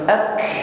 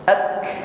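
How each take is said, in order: First: The k is released with a hissing sound. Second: The k is released with only a soft breath. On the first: The speaker calls it wrong. "ak ini bisa dikatakan mirip desisan" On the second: The speaker calls it right. "ak ini hanya nafas"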